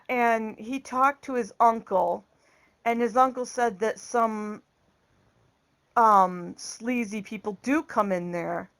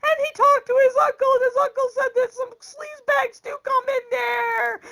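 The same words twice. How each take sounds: First: Said in the usual way. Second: High mock bawling in a rush; exaggerated high wail; imitated crying. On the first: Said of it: "she's crying harder now". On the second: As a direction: blubber it out like a hammed-up sobbing daughter. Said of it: "And she's crying harder now".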